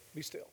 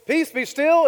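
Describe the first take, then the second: First: Barely voiced, very soft echo; hushed. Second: Loud, high command to the storm. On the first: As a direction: drop to a near whisper as nature obeys. Nature echoes back the command. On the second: Acted. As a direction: call it out with authority over the waves. Voicing Jesus commanding the sea.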